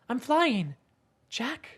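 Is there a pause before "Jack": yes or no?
yes. There is a pause before "Jack".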